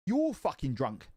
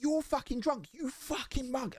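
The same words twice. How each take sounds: First: Said in the usual way. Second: Put-on much higher, furious at the drunk driver; retold angry yell. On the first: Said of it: "I was like". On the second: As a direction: yell it in a rage, pitch jumping up. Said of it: "I lost my shit".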